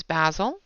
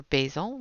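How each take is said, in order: First: Basil with a short a, as in jazz; basil as BAZ-il. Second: Basil with a long a, as in bay; basil as BAY-zil. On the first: Offering viewers one name for the color, basil said BAZ-il. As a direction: say basil to rhyme with dazzle. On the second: Offering viewers the other name for the color, basil said BAY-zil. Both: Shown as a demonstration. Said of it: "whichever you want to call it".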